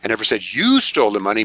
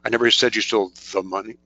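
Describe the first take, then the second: First: The word "you" is stressed. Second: The word "the" is stressed. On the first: "Maybe your partner did" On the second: "The doesn't really work too well"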